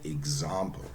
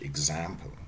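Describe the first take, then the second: First: It is said in a British accent. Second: It is said in an American accent. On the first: "you have to say example" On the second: "or American English"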